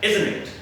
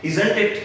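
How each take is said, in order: First: "isn't it" run together as izn-it; contracted isn't it. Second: "isn't it" with full -zant and t; wrong isn't it. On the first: Teacher correcting learners, reduced isn't it. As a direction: drop the first t in "isn't it". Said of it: "ये होता है". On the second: Teacher mimicking the mistake, full isn't it. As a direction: sound every t in "isn't it". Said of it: "गलत होता है". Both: Shown as a demonstration.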